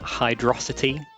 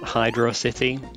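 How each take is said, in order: First: It is said as one word, like velocity. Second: It is said as two separate words. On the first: The speaker calls it right. "It's all one word. Like velocity" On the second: The speaker calls it wrong. "not Hydro City"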